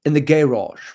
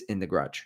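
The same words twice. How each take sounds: First: "garage" loud and high, stretched as "GAY-rahj"; drawn-out garage. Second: "garage" squashed to one syllable, like "grudge"; clipped garage. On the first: Host mock-correcting himself on the treadmill's place, "garage" loudly stretched to "GAY-rahj". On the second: Host mentioning where the treadmill is, "garage" squashed like "grudge". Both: Shown as a demonstration. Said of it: "I'm sorry".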